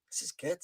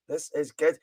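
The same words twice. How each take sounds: First: Muttered aside. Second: Said in the usual way. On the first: Real, not acted. Streamer reacting to a viewer's greeting, muttered aside.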